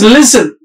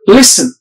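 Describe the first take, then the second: First: The middle consonant is a buzzing z sound. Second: The middle consonant is a hissing s sound. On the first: The speaker calls it wrong. "They pronounce it as listen. Z" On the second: The speaker calls it right. "So this sound is sir here"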